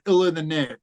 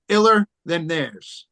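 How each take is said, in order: First: Said in the usual way. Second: Spelled-out name. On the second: Shown as a demonstration. Telling the host his rap group's name, "Iller Than Theirs", slowly.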